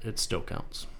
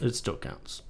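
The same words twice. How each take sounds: First: Soft unvoiced repeat; whispering. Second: Breathy half-whisper. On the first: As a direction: breathe it to yourself. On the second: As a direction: say it under your breath. Whispered repeat of partner. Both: Real, not acted.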